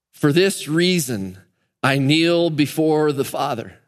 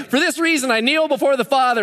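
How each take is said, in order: First: Slow solemn reading. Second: High, breezy, offhand reading; Paul tossing off his prayer, high and careless; mock casual Paul. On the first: Shown as a demonstration. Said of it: "Could, could you see him writing that?". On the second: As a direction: toss it off like it means nothing. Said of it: "Can you imagine if Paul's, like, just writing".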